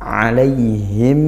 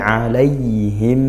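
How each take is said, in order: The two takes are said the same way.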